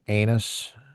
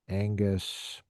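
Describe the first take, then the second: First: The G sound in the middle is dropped. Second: The G sound in the middle is pronounced. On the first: The speaker calls it wrong. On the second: The speaker calls it right.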